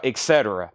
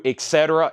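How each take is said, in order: First: Dropped much lower, falling off; low trailing et cetera. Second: Said in the usual way. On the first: Real, not acted. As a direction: let it sink away at the end of the list. Listing items, repeated phrase.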